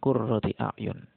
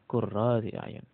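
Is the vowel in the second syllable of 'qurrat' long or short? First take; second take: short; long. First: The vowel before the t is short. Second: The vowel before the t is long. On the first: This is the reading found in the common written copy. "tidak ada alifnya. Taknya pakai tak marbutoh" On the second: This is another accepted reading. "ada alifnya"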